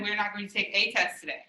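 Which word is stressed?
a. The stress is on the word a.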